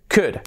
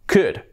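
Both takes have the same delivery.

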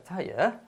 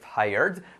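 First: It is said with a British accent. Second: It is said with an American accent. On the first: "En Inglaterra" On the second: "En Estados Unidos"

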